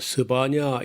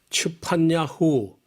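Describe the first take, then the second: First: The name is said in a softened Korean form. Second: The name is said in its original Hebrew form. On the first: "우리 말은 좀 부드럽게" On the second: "제대로 한 반역 발음이 쉽지 않지만은"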